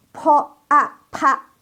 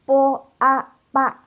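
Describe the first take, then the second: First: Po a pa with all the air released; aspirated p. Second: Po a pa with no puff of air; high, level po a pa, p held tight; unaspirated p. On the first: Teacher showing Po a pa with strong aspiration. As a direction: puff hard on p in Po a pa. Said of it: "udaranya keluar semua". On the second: Teacher blending po a pa, unaspirated and level. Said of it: "Tadi kan nggak keluar udara". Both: Shown as a demonstration.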